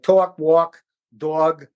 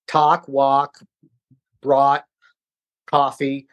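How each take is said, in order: First: "talk, walk, dog" with rounded "aw" vowels; New York accent on each listed word; New York diphthong. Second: "Talk, walk, brought, coffee" with open "ah" vowels; measured drill with no New York "aw"; corrected vowels. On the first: Shown as a demonstration. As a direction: say "tawk, wawk, dawg". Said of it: "it's a diphthong". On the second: Retold or imitated. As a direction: read "tahk, wahk, braht, cahffee", word by word. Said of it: "go down the sheet and say it all".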